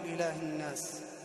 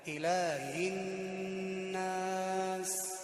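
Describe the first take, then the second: First: The h sound is faint and unclear. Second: The h sound is clear and distinct. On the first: The speaker calls it wrong. "لا نقول إله الناس" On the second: The speaker calls it right. "لا بد أن نوضح حرف الهاء"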